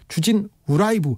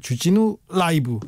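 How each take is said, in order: First: The break comes before the syllable 'u'. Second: The break comes after the syllable 'u'. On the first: "주진 우라이브 이렇게 해보세요" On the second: "주진우 라이브 하지 마시고"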